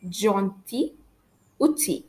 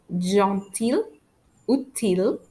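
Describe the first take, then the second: First: "gentil" and "outil" ending in "ee"; silent L. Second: "gentil" and "outil" with the l sounded; wrong pronunciation. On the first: French teacher giving the correct model, no l in "gentil" or "outil". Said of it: "we pronounce those two words as". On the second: French teacher showing the mistake, l heard in "gentil" and "outil". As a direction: end "gentil" and "outil" on a clear "eel". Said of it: "I don't pronounce the word as". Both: Shown as a demonstration.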